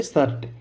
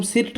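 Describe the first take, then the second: First: "शर्ट" with a schwa, sounded like "sart"; correct pronunciation. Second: "सिर्ट" with a short i vowel; wrong pronunciation. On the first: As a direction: say "शर्ट" with an "uh" vowel before the r. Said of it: "इसको हम बोलेंगे शर्ट". ("शर्ट" में इ नहीं, अ की आवाज़) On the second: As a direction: say "सिर्ट" with "ih" before the r. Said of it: "इसको हम सिर्ट नहीं बोलेंगे". ("सिर्ट" में छोटी इ की गलत आवाज़) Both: Shown as a demonstration.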